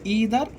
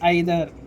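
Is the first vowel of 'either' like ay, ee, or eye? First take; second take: ee; eye. First: The first vowel sounds like 'ee'. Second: The first vowel sounds like 'eye'. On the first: "ఈదర్ లేకపోతే ఐదర్ అనాలి" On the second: "ఈదర్ లేకపోతే ఐదర్ అనాలి"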